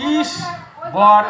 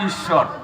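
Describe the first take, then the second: First: The two parts are said separately. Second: The two parts are joined together. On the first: The speaker calls it wrong. "আলাদা আলাদা উচ্চারণ করে তাহলে ঈশ্বর হয় না" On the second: The speaker calls it right. "সংযুক্ত করলে ঈশ্বর হয়"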